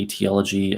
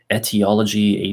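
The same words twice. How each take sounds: First: "Etiology" opening on a long vowel. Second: "Etiology" opening on a short eh. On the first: Reader correcting a title word, "Etiology" with long opening vowel. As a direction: say "Etiology" as ee-tee-OL-uh-jee. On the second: Reader trying out a title word, "Etiology" with short opening e. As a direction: say "Etiology" as et-ee-OL-uh-jee. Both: Shown as a demonstration. Tries two readings of a word.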